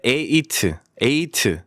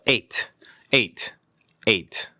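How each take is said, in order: First: "eight" drawn out as "e-i-teu"; slow wrong "eight" with an extra syllable; extra-syllable mispronunciation. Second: "eight" short, T cut with no vowel after it; one-syllable pronunciation. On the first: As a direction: add a vowel after the T in "eight". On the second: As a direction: say "eight" as a single quick "eyt". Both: Shown as a demonstration. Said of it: "음절을 하나 더 만드시면 안 됩니다".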